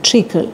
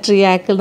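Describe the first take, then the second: First: ട്രിക്കിൾ in two quick syllables, "trik-kil"; ട്രിക്കിൾ clipped the way the dictionary voice says it; correct pronunciation. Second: ട്രിയാക്കിൾ stretched into three syllables, "tri-yaa-kil"; ട്രിയാക്കിൾ the everyday Malayali way, "tri-yaa-kkil"; her usual pronunciation. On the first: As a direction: say ട്രിക്കിൾ short like "trickle", with no "yaa". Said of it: "pronunciation is". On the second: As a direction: say ട്രിയാക്കിൾ with the long drawn "yaa" in the middle. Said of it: "ഞാൻ പറയുന്ന". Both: Shown as a demonstration.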